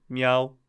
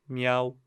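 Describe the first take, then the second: Both takes have the same delivery.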